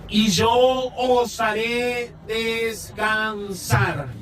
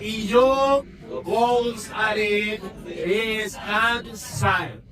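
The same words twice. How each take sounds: First: No special stress falls on yo. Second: The stress falls on yo.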